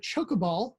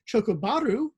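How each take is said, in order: First: It is said with an English accent. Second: It is said with a Japanese accent.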